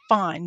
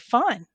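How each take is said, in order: First: It sounds irritated and unwilling to talk. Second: It sounds cheerful and genuinely fine.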